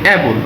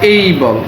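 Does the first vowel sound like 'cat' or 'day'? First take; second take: cat; day. First: The first vowel sounds like the 'a' in cat. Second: The first vowel sounds like the 'ay' in day. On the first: The speaker calls it wrong. "আসলে কিন্তু অ্যাবল না" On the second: The speaker calls it right. "এটা হচ্ছে এই বল"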